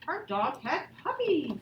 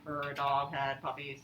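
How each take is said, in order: First: It is read with lively expression. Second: It is read flat, like a robot.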